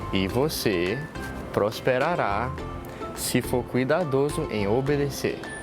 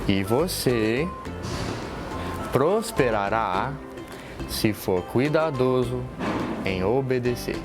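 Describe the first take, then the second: First: It is said at a normal speed. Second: It is said more slowly.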